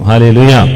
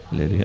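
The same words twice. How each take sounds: First: The word is said loudly, with energy. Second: The word is said softly, without energy. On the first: The speaker calls it right. "ഉച്ചത്തിൽ ദൈവത്തെ സ്തുതിക്കണം" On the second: The speaker calls it wrong. "അങ്ങനല്ല"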